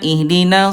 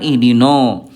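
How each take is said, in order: First: The final vowel is thin, with spread lips. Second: The final vowel is thick, with rounded lips. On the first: The speaker calls it right. "Na senyum ya" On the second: The speaker calls it wrong. "bukan ihdino"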